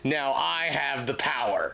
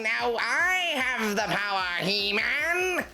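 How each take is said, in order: First: It is said in his normal voice. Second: It is said in a Skeletor impression voice.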